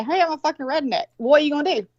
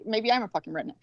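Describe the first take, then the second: First: Mock announcement, pitched up; claiming it first. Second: Muttered mock comeback, trailing softer; defensive retort. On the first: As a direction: play a breezy self-introduction, higher than usual. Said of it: "I claim it". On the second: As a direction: grudgingly throw it back, quietly, as a quote. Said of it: "you think I'm a redneck?".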